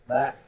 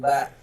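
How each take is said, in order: The two takes are said the same way.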